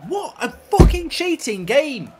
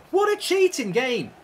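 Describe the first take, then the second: First: Angry outburst. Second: Said in the usual way. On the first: Real, not acted. Angry at the cheating game.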